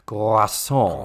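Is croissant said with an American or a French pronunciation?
French. It is said the French way, with rolled R. "But the French would be the, you have to roll the R"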